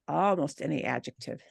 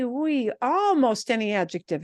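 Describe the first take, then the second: First: Quiet repeat. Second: Said in the usual way. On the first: Shown as a demonstration. Teacher quietly repeats "almost any adjective" for the class. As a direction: lower and softer, stressing "almost". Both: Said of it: "notice that".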